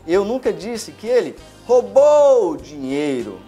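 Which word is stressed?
roubou. The stress is on the word roubou.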